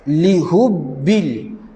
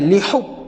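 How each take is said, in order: First: The h is light, like a plain soft h. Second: The h is forceful, with extra breath released. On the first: The speaker calls it wrong. "Jangan baca dengan lihubbil" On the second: The speaker calls it right. "pedaskan dia. Kita lepaskan angin lebih"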